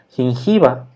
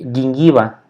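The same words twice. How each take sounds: First: The G sounds like the Spanish J sound. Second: The G sounds like 'gu', a hard G. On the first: The speaker calls it wrong. "lo leeríamos como gingiva, pero no se dice así" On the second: The speaker calls it right. "una G suave como si tuviera una, una U eh, intermedia"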